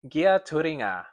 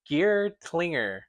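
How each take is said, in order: First: The name is pronounced with reshaped, added syllables. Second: The name is pronounced just as it is spelled.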